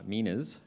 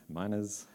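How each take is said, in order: First: "minas" said MEE-nuz, short ee vowel. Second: "minas" said MY-nuz, rhyming with "minus"; minas with long i. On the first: Trying one way of saying "minas" as MEE-nuz. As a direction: say "minas" as MEE-nuz, stressing the first syllable. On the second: Settling on the other way of saying "minas" as MY-nuz. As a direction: say "minas" as MY-nuz, stressing the first syllable. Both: Shown as a demonstration.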